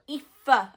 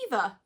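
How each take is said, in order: First: The name is said with an f sound. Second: The name is said with a v sound. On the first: The speaker calls it right. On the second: The speaker calls it wrong. "they go"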